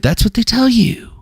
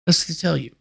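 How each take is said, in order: First: Higher mocking take on tell. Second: Much softer muttered repeat; quiet. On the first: Parroting what people tell you, in a mock voice. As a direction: parrot the saying in a raised mock voice. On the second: Muttering the saying again to self, under breath. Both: Shown as a demonstration.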